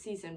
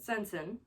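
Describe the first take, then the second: First: The name has no n sound in the middle. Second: The name has an n sound in the middle. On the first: The speaker calls it wrong. "I used to pronounce it Season, but that's because I never saw the this the first N" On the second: The speaker calls it right. "I think that's how you pronounce it"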